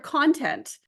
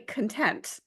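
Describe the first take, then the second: First: The stress is on the first syllable. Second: The stress is on the second syllable. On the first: The speaker calls it wrong. "I always call her content" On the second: The speaker calls it right. "it's probably content"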